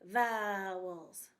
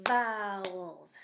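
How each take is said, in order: First: "Vowels" split into two beats, vow-els; "Vowels" clapped out in two parts; vowels split into syllables. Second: "vowels" said smoothly as one word; "vowels" said whole, without syllable breaks; vowels said in one beat. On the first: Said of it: "you could also do it this way". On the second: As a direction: say "vowels" straight through, no split. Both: Shown as a demonstration.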